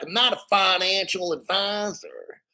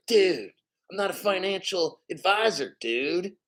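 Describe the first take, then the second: First: Higher-pitched mock Southern accent. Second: Mock Californian dude accent; California accent. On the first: Streamer showing how people from the South talk, mock Southern accent. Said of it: "people from the South". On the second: Streamer showing how somebody from California talks, mock Californian accent. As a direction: imitate a laid-back California dude accent. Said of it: "somebody from California".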